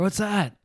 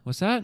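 First: The question sounds excited and eager. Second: The question sounds puzzled, as if unheard. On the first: The speaker is thrilled about something. The speaker calls it wrong. "That was me being excited about that" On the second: The speaker could not hear what was said. The speaker calls it right. "But exactly"

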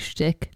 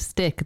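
First: The word begins with an SH sound. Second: The word begins with a plain S sound. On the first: "they'd say shtick" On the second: "instead of stick"

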